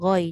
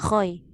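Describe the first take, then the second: First: It begins with a voiced gh sound. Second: It begins with a voiceless kh sound. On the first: The speaker calls it right. "ghoi jangan khoy" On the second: The speaker calls it wrong. "jangan khoy"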